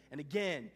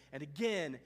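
The two takes are said the same way.

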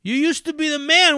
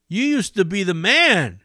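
First: Taunting cameraman. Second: A bit higher mocking jab; taunting cameraman. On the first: Retold or imitated. Cameraman lighting up the homeless man, high jeering taunt. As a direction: push the insult harder. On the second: Cameraman needling the homeless man, lightly high taunt. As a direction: tease him with fake pity. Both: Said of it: "he starts shitting on him".

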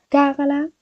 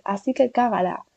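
First: Cágala thrown up high with a rising tune; higher repeat. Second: Said in the usual way. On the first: Real, not acted. She urges viewers to mess up freely, cágala rising high. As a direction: toss the second cágala up playfully. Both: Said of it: "urging viewers".

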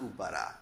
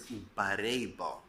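First: "ubara" with an ah vowel at the end; wrong reading. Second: "ubare" ending in an ay vowel; alternative reading. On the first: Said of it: "is the wrong way to read it". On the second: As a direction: say "ubare bo" slowly, with ay before bo. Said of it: "The word is ubare bo". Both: Shown as a demonstration.

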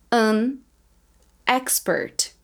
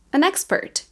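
First: An and expert split by a pause; words said separately. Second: An expert run together as anexpert; linked naturally. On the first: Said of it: "Eu vou falar as palavras separadas". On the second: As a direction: carry the n of An into expert. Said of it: "Depois eu vou falar mais naturalmente". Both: Shown as a demonstration.

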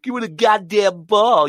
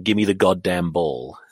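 First: High, slow, exaggerated American accent; mock American accent. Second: Said in the usual way. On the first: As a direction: parrot him in a hammed-up Yank accent. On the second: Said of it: "And my friend went".

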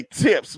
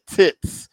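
First: Said in the usual way. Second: Tips said as "tits"; slip of pronunciation. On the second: Real, not acted. Owning up to a slip, tips pronounced "tits". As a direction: end tips on a "ts" sound, as "tits". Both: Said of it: "I meant to say tips".

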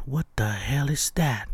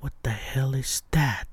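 First: Said in the usual way. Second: Spooked whisper, breath only; whispered alarm. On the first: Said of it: "And then". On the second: Retold or imitated. Driver whispering at a moving shadow overhead. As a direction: whisper it as if something might hear you. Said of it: "and then I'm like".

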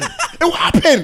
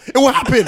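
First: Higher, slow, stretched through a laugh; laughing taunt. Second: Said in the usual way. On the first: Real, not acted. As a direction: gloat over it, laughing as you drag it out. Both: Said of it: "repeats it, laughing".

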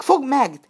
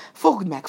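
First: Loud, higher yell to grab him; louder chase cry. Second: Loud call to grab him; chase cry. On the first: Robbers closing in on Burattino yell, louder and higher. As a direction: raise the cry to a full yell. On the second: Robbers chasing Burattino at the lake call out, loud. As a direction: shout it mid-chase. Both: A narrator's reading.

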